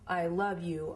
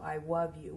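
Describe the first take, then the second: First: The word love begins with an L sound. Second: The word love begins with a W sound. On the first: The speaker calls it right. "instead of I love you" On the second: The speaker calls it wrong. "His L's would come out as W's"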